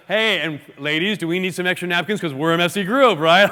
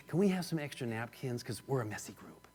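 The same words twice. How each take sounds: First: Loud jokey call to the group, ending in laughter; openly joking. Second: Very soft, low, confidential request; imitated whisper. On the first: Acted. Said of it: "She would have said it like that". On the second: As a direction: lean away and ask under your breath. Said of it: "She leaned away from the group and whispered".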